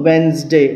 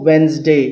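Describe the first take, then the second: The two takes are said the same way.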